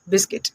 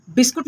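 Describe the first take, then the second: First: बिस्किट ending in "-kit" with an i; English-style "bis-kit" for बिस्किट; English pronunciation. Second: बिस्कुट ending in "-kut" with a u; Hindi-style "bis-kut" for बिस्कुट; Hindi pronunciation. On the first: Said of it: "English में क्या बोलते हैं". (अंग्रेज़ी वाला बिस्किट, "कि" के साथ) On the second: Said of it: "बिस्कुट हम हिंदी में बोलते हैं". (हिंदी वाला बिस्कुट, "कु" के साथ) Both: Shown as a demonstration.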